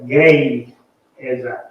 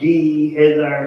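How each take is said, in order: First: The first syllable sounds like 'gay'. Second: The first syllable sounds like 'gee'. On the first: The speaker calls it right. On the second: The speaker calls it wrong. "I would have like G E Hezi or something"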